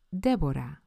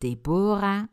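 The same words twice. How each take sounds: First: The name is said in the Spanish way. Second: The name is said in a non-Spanish way. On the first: The speaker calls it right. "Zo spreken die nou eenmaal in het Spaans uit" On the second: The speaker calls it wrong. "het zijn ze alle drie niet"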